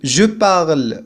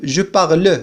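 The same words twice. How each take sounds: First: "je parle" with the final e of "parle" silent, ending on the r; correct pronunciation. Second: "je parle" with the final e of "parle" sounded, "par-le"; mock mistake, add an "uh" after the r of "parle"; wrong pronunciation. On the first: Teacher showing students the correct form with a silent final e. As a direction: say "parle" as one syllable, no e after the r. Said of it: "نقول je parle ولا نقول". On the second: Teacher showing students the common mistake, e wrongly pronounced. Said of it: "ولا نقول je parle". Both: Shown as a demonstration.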